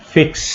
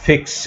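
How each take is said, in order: Both takes have the same delivery.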